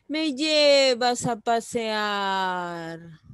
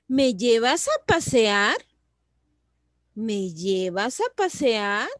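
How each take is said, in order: First: LLEVAS alargado, PASEAR muy largo y descendente; exclamación, no pregunta. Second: Pregunta clara, PASEAR sube al final. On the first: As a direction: exclama lento, estirando el final de «pasear». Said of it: "no estoy haciéndole una pregunta". (exclamación lenta que cae) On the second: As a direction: levanta el tono en «a» y al cerrar «pasear». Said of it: "Puedo hacer una pregunta". (pregunta con final muy ascendente) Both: Shown as a demonstration.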